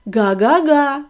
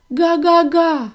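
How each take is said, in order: First: Car's honk. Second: High, loud, slow happy honk; an overjoyed gosling's honk; joyful honk. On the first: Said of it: "сказав автомобіль". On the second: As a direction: burst out with joy. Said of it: "зрадів Віллі". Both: Acted.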